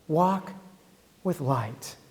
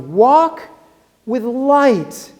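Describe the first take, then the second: First: It is said softly. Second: It is said loudly.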